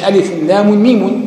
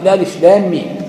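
First: Each letter name ends with an added vowel. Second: Each letter name ends in a silent consonant. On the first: The speaker calls it wrong. "ما قالش ألف لام ميم، ما حركهاش" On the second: The speaker calls it right. "ونطقت هكذا إيه ساكنة"

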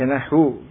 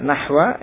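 First: The word ends with a 'u' vowel. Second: The word ends with an 'a' vowel. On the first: The word is the predicate of an omitted subject. "Kalau dibaca dhammah nahu" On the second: The word is the object of an omitted verb. "Kalau nahwa sebagai maf'ul bih dari fi'il yang mahdhuf"

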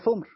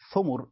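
First: One u vowel, then no vowel after m. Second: Both syllables have the vowel u. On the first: "ثمر بضمة في السكون" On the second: "ثمر بضمتين"

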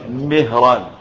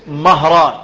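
First: The first vowel is an i sound. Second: The first vowel is an open a sound. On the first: It names the freed servant of the Prophet. "لكن مولى النبي بكسر الميم اسمه ايه؟" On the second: It names other men found in history books. "رجال باسم مهران بفتح الميم"

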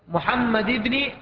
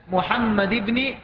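No difference in how they are said.

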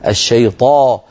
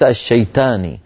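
First: The t sound is heavy and emphatic. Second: The t sound is light and plain. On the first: The speaker calls it right. "حرف الطاء حرف مفخم" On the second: The speaker calls it wrong. "الشيطاني هذه تاء"

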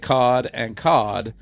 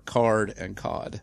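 First: The r in the first word is dropped. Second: The r in the first word is pronounced.

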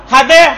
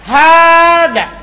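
First: The first vowel is cut short. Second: The first vowel is drawn out long. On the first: It no longer works as a call for attention. The speaker calls it wrong. "Nanti kalau pendek ... bukan tambi itu" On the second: It alerts the listener before pointing. The speaker calls it right. "Makanya dia dipanjang"

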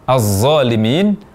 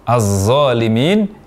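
Both takes have the same delivery.

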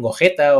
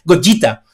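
First: The name is pronounced the Spanish way. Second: The name is pronounced the Japanese way. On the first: "fuera la G no se pronuncia así, le dicen Gogeta" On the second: "lo dije en japonés"

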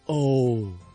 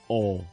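First: It sounds let down and disappointed. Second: It sounds offhand and perfunctory. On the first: Something has turned out worse than hoped. "如果遇到令到你有啲失望嘅事情，你会叫一声" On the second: The listener is brushing the other person off. "如果想马虎地敷衍人哋，但系又唔知讲啲乜嘢嘅时候，你会讲一声"

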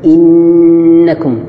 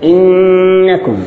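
First: The n is light with a clear nasal sound. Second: The n is pressed hard with a strained nasal sound. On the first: The speaker calls it right. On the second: The speaker calls it wrong.

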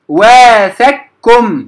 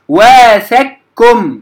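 The two takes are said the same way.

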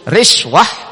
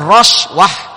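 First: The first vowel is an i sound. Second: The first vowel is an a sound. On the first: "riswah di kasrah ro'nya" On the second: "dibaca roswah di fathah ro'nya"

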